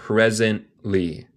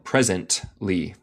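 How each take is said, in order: First: "Presently" slowly, a soundless gap for the T; swallowed T. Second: "Presently" slowly with the T clearly released; pronounced T. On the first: Teacher shows the silent space, "Presently" with T swallowed. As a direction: stop short before the "ly" in "Presently", no T. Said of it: "yo dejo un espacio sin sonido". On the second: Teacher shows the optional way, "Presently" with an audible T. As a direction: sound the T in "Presently" before the "ly". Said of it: "Se puede decirlo". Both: Shown as a demonstration.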